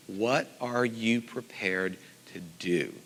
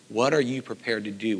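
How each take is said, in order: First: What are you prepared to do? said slowly, leaning on What; drawn out and weighty, each word set down; slow emphatic question. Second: Said in the usual way. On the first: Shown as a demonstration. Teacher putting the key question to students, slow and weighty. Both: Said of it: "the question that I ask my students".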